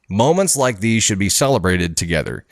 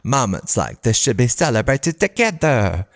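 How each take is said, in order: First: It is read in a plain, normal voice. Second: It is read in a put-on character voice. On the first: The speaker calls it wrong. "I got to redo that one" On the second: The speaker calls it right. "in the Moira voice here"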